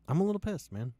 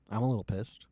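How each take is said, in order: First: Pitched-up repeat. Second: Said in the usual way. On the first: Real, not acted.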